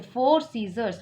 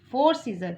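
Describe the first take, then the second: First: Four scissors with a clear final s on scissors; correct plural. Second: Four scissor with no final s sound; wrong singular form. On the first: Teacher to class, gives the right plural scissors. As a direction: land the s at the end of scissors. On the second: Teacher to class, shows the wrong form of scissor. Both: Shown as a demonstration. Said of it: "क्यों बोलेंगे ना इसे".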